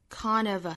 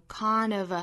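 No difference in how they are said.

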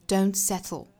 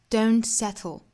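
Both takes have the same delivery.

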